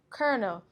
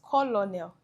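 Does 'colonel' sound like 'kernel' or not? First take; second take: like kernel; not kernel. First: The word sounds like 'kernel'. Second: The word does not sound like 'kernel'. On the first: The speaker calls it right. "The correct pronunciation is colonel" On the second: The speaker calls it wrong. "This isn't pronounced colonel"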